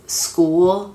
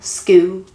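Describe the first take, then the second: First: The final L sound is clearly pronounced. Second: The final L sound is dropped entirely.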